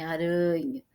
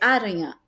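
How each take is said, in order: First: The stress is on the middle syllable. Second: The stress is on the first syllable. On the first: The speaker calls it right. "é aranha" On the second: The speaker calls it wrong. "se fosse o a, seria aranha"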